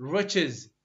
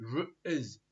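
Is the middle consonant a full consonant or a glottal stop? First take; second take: full consonant; glottal stop. First: The middle consonant is fully pronounced. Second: The middle consonant is a glottal stop.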